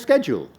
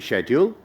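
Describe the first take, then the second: First: It is said with an American pronunciation. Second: It is said with a British pronunciation.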